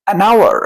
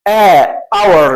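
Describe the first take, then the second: First: "an hour" linked as "a-nower"; نطق موصول. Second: "a hour" with separate article and silent H; نطق خاطئ. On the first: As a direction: glide the N of "an" into "hour". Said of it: "هنقول إيه؟". ("an hour" موصولة "أناور") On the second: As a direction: keep "a" apart from "hour", no N. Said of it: "يبقى غلط". ("a hour" بلا نون) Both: Shown as a demonstration.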